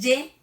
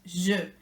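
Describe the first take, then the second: First: The word begins with a y sound. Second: The word begins with a non-y sound. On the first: The speaker calls it wrong. "No es ye" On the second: The speaker calls it right. "es je"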